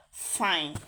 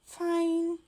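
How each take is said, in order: First: Low, falling "Fine"; curt fine. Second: High, sustained "Fine"; drawn-out fine. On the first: Woman answering without looking at him, curt low "Fine". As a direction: say "Fine" lower, dropping at the end. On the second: Reply before he grabs his coat, high drawn-out "Fine". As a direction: stretch "Fine" out on a high, level note. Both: Acted. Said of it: "it depends on how you say it".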